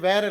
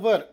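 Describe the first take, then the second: First: It has a 'wy' glide and an open 'ar' vowel. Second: It has a plain 'w' and a short 'er' vowel. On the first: The speaker calls it wrong. "ವ್ಯಾರ್ ಅಲ್ಲ" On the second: The speaker calls it right. "ಇದರ ಉಚ್ಚಾರ ವರ್"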